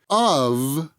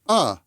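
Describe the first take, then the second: First: The word ends with a v sound. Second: Only a short vowel is heard, no v. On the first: "has the v sound" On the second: "that v sound of of is dropped. And that leaves us with the vowel sound"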